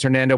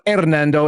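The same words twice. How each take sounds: First: The name is said with an English accent. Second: The name is said with a Spanish accent. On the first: The speaker calls it right. "the gringo pronunciation is Hernando, but that's the way he does it" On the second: The speaker calls it wrong. "not Hernando, as you might if you live in San Antonio too long"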